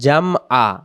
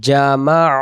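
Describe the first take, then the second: First: The m is closed off before the last vowel. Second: The m runs straight into the next vowel. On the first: The speaker calls it wrong. "ভুল করে এমন বলে ফেলি" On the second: The speaker calls it right. "উচ্চারণ জামা"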